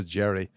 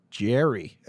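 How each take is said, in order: First: Said in the usual way. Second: JERRY said the American way; mock American "Jerry"; put-on American accent. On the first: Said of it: "as opposed to Jerry". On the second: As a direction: imitate an Americanized Irishman saying JERRY. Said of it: "your half Irish accent".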